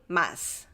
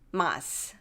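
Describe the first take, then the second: First: The word ends with a released s sound. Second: The same.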